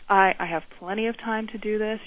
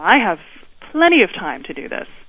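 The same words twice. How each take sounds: First: It is said in a sincere tone. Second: It is said in a sarcastic tone. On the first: The speaker means the words literally. "That would be a sincere way to say it" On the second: The speaker means the opposite of the words. "the boss is very sarcastic with him"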